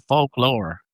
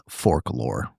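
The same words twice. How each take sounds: First: Folklore said with a Southern accent. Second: Imitating a Southern drawl on folklore; low, mock Southern folklore; Southern accent. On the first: Real, not acted. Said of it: "It's my accent". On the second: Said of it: "or as Dalton says".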